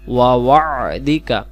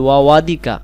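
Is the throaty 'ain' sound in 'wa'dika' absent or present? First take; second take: present; absent. First: A throaty 'ain' sound is heard in the word. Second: No throaty 'ain' sound is heard in the word. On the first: The speaker calls it right. "এখানে আইন আছে" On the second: The speaker calls it wrong. "তাহলে আইনটা বাদ যাবে"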